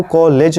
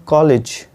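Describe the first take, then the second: First: "कॉलेज" with a long e in the second syllable; wrong COLLEGE. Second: "कॉलेज" with a short i in the second syllable; correct COLLEGE. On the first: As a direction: say "कॉलेज" as "ko-layj". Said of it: "इसको आपको कॉलेज नहीं बोलना है". ("कॉलेज" में ले पर लंबी ए) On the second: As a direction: say "कॉलेज" as "ko-lij". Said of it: "इसको बोलना है कॉलेज". ("कॉलेज" में छोटी इ, "कॉलिज") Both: Shown as a demonstration.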